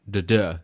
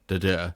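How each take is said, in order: No difference in how they are said.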